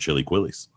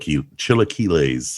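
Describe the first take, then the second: First: It is said as two words, chili quillies. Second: It is said as one word, chilaquiles. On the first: "I've been calling them chili quillies for the last year" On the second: "I think I'm saying that right"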